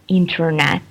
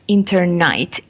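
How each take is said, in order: First: The last syllable is said as 'net'. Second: The last syllable is said as 'night'. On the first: "usually they cannot pronounce the word internet" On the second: "I came across uh, to hear internight"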